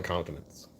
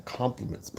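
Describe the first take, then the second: First: "compliments" mumbled as roughly "contfenents"; slurred slip. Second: Said in the usual way. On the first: Real, not acted. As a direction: stumble over "compliments", middle consonants muddled. Slips on word, then repeats it.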